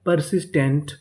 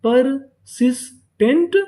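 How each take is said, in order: First: Said in the usual way. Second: persistent slow as पर, सिस, tent, last part rising; syllable by syllable. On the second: Shown as a demonstration. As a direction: teach persistent piece by piece, pitched higher. (Persistent धीरे-धीरे, हर हिस्सा अलग) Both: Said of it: "तो पूरी meaning क्या बनी".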